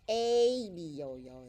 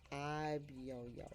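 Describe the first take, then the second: First: The first vowel is a long A sound. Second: The first vowel is a short sound. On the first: The speaker calls it wrong. "it doesn't sound like" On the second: The speaker calls it right. "So it's a very short sound"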